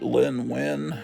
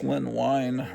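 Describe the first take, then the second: First: The surname has a short 'i' vowel, like 'win'. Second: The surname has a long 'i' vowel, like 'wine'. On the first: The speaker calls it wrong. "I always pronounced it" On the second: The speaker calls it right. "but I think it's"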